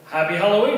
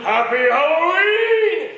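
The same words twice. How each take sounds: First: Said in the usual way. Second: Loud, high, slow monster roar; drawn-out scary holler; monster greeting. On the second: Retold or imitated. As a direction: boom it out to scare kids. Stuffed dummy springs to life.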